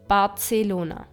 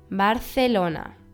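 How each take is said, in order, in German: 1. Das c wird als s-Laut ausgesprochen. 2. Das c wird als th-Laut ausgesprochen. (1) "und nicht als S" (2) "Das C mit einem E oder I wird als Z ausgesprochen"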